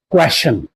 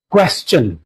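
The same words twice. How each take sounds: First: The ending does not sound like stun. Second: The ending sounds like stun. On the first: The speaker calls it wrong. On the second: The speaker calls it right. "it will be pronounced as stun"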